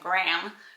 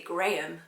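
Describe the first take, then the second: First: The name is squeezed into one syllable. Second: The name is spread over two syllables. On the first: "I love how Americans say Graham, Graham, Graham, like one" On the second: "we always say Graham"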